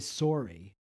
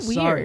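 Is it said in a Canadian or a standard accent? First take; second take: Canadian; standard. First: It is said in a Canadian accent. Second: It is said in a standard accent.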